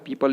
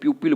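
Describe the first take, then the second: First: The first syllable sounds like 'pee'. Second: The first syllable sounds like 'pyoo'. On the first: The speaker calls it right. "पीपल ही बोलना है" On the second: The speaker calls it wrong. "कुछ लोग बोलते हैं प्यूपिल ... approach गलत है"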